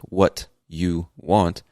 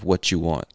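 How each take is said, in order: First: The t and y sounds stay separate. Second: The t and y blend into ch. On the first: "instead of saying" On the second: "we end up connecting those words by making a ch sound"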